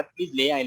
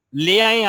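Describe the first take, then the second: First: Said in the usual way. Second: Higher and louder, urging the viewer; an enthusiastic "لے آئیں" said high and loud; emphatic encouragement. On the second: Real, not acted. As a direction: push them warmly to go ahead and bring it. Encouraging viewer to bring date palm.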